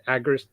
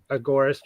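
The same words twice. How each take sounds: First: "agorist" stressed on the first syllable, AG-orist; variant pronunciation. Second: "agorist" stressed on the second syllable, a-GOR-ist; variant pronunciation. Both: Shown as a demonstration. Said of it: "depending on how you wanna pronounce it".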